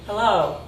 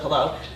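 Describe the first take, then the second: First: The vowels are stretched out longer. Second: The vowels are short and clipped. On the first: "elongating vowels ... it's just a second longer" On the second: "instead of hello"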